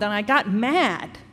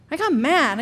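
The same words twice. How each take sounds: First: Said in the usual way. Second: "I got mad" repeated higher and harder, leaning on "mad"; emphatic repeat. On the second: Real, not acted. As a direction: punch "mad" the second time, louder.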